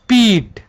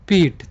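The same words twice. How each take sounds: First: The vowel is said with force, lengthened. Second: The vowel is said without force, short. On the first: "बल लगाएंगे तो ... ये दीर्घी का रूप ले लेगा" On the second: "अगर हम इसमें अगर जोर नहीं दें, मतलब कि बल नहीं लगा है"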